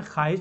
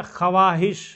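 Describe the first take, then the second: First: ख्वाहिश read as khahish, silent व; spoken form. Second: ख्वाहिश with the written व sounded, kha-wa-hish; spelled-out form. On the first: Teacher shows how ख्वाहिश is actually read, silent व. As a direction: say ख्वाहिश the normal way, dropping the व. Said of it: "पढ़ते क्या है?". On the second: Teacher shows how ख्वाहिश is written, sounding the व. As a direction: say ख्वाहिश letter by letter as written, voicing the व. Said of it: "लिखे क्या?". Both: Shown as a demonstration.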